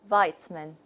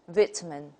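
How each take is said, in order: First: It is said with an American accent. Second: It is said with a British accent. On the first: "according to the American model" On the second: "if we take the British model, we say"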